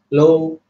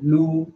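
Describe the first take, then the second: First: The vowel is an open o with mouth wide. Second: The vowel is a close u with lips rounded. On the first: The speaker calls it wrong. "bukan lo, bukan buka mulut, lo, lo, itu salah" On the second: The speaker calls it right. "Kalau dhammah, taj'alu, lu, lu"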